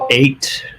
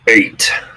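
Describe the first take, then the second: First: It is said in his normal voice. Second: It is said in Norman's character voice.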